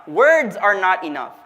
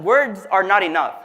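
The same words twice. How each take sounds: First: "Words are not enough" drawn out slowly; deliberate, slowed restatement of "Words are not enough"; slow emphasis. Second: Said in the usual way. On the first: Real, not acted. Same point repeated slowly for emphasis.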